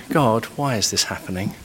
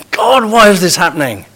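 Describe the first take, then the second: First: Quiet sincere plea. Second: Indignant demand at God. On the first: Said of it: "one is asking for wisdom from God". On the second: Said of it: "the other is doubting the very goodness". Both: Shown as a demonstration.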